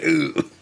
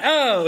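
First: "ooh" held on a long oo; a drawn-out mimicked "ooh" with rounded vowel; "ooh" catchphrase. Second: "oh" yelped high with an open o; a high, punchy mimicked "oh"; "oh" catchphrase. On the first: Showing co-hosts Gallagher's catchphrase, drawn-out "ooh". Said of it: "it's an "ooh". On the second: Showing co-hosts the wrong catchphrase, high "oh". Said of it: "Not an "oh," it's an "ooh". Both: Shown as a demonstration.

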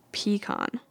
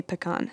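First: "pecan" said PEE-kahn; majority pronunciation. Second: "pecan" said pih-KAHN; short first vowel in "pecan", stressed kahn; runner-up pronunciation. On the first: Vlogger reading top poll result, pecan as PEE-kahn. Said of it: "and they said". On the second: Vlogger reading second poll result, pecan as pih-KAHN. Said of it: "and they say pecan". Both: Shown as a demonstration.

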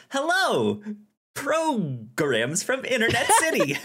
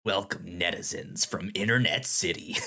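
First: High, cheerful host voice; a sunny, upbeat hello; bright chipper greeting. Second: Deep, looming host voice; low magnetic voice. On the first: Shown as a demonstration. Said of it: "Instead of". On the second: Pretend. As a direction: greet them like a menacing overlord. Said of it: "Your voice is so deep when you do that".

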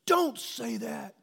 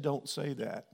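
First: High, slow, stretched plea in a daughter's voice; the daughter pleads with her father in the hallway, high and slow; daughter pleading. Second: Said in the usual way. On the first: Retold or imitated. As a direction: beg him to stop, drawn out and much higher.

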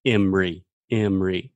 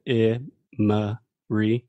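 First: "Emory" squeezed into two syllables, EM-ree; fast-speech pronunciation. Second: "Emory" slowly in three parts, E-muh-ree; careful schwa pronunciation. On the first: Teacher shows how dad says it, fast-speech pronunciation. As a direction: drop the middle vowel of "Emory": EM-ree. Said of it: "when I'm speaking fast". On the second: Teacher shows the technical form, syllable by syllable. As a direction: break "Emory" apart with a clear schwa in the middle. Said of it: "technically this has the schwa sound". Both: Shown as a demonstration.

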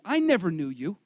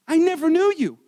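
First: Said in the usual way. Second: Louder, hammered-home declaration; forceful repeat. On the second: Acted. Preacher quoting Jesus' rejection, forceful declaration. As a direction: repeat it with weight and volume.

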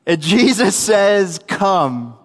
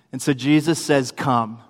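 First: Slow and emphatic, dropping on "Come"; slow, deliberate repeat. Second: Said in the usual way. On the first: Retold or imitated. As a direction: spell it out slowly for someone who misheard. Repeats the call after Peter mishears.

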